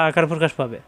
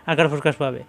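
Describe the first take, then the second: No difference in how they are said.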